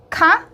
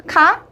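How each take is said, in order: The two takes are said the same way.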